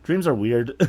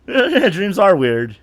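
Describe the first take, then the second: First: Said in the usual way. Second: Slow amused repeat; laughing, drawn out. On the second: Real, not acted. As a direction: stretch it out through a laugh.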